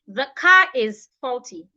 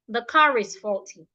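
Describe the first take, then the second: First: 'Car' and 'is' are said as separate words. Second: 'Car' and 'is' are joined by a linking r. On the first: The speaker calls it wrong. "instead of saying" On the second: The speaker calls it right. "I'll say it together"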